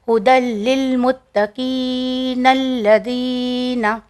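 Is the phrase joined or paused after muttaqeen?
joined. The words run together without a stop. "हमने यहाँ पे कंटिन्यू किया है तो इसके लिए हमने इसे इस तरह पढ़ा"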